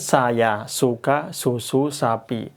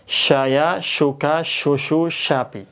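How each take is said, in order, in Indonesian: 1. Bunyi desisnya itu s yang tipis. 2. Bunyi desisnya itu sh yang tebal. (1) "Ini sin" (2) "Ini shin, shin tebel, sh, dan ada suara desis yang banyak"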